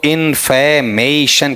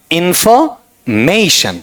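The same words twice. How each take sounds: First: इन्फॉर्मेशन slowly in four beats, "in-fe-may-shun"; syllable-by-syllable. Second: इन्फॉर्मेशन very slow, "in-fo", pause, "MAY-shun"; middle-syllable demonstration. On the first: Teacher having students count syllables, syllable-by-syllable. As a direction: separate each syllable of इन्फॉर्मेशन, reduced second vowel. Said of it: "कितने syllable हो गए". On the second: Teacher pointing out the middle part, syllable demonstration. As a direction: stretch इन्फॉर्मेशन with a full o in "fo". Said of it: "बताओ कैसा है आपका ये वाला part". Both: Shown as a demonstration.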